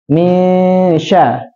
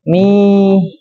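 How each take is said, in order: First: Misya with a long humming m; correct nasal misya. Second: Misya said flat with no nasal hum; wrong flat misya. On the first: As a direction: hold the nasal hum before sya. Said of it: "betul, hampir mirip seperti ini". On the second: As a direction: skip the hum in misya and go straight on. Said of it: "jangan bacanya". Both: Shown as a demonstration.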